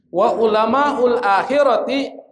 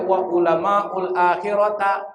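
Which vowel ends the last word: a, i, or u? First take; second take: i; a. First: The last word ends in an i vowel. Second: The last word ends in an a vowel. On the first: The speaker calls it right. "kenapa dibaca ti kasrah?" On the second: The speaker calls it wrong. "Enggak boleh"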